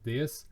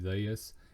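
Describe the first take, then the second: First: It is said in a plain, neutral accent. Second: It is said in a stronger country accent. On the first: The speaker is calm. "my normal voice" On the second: The speaker is nervous. "a little bit more country with my accent"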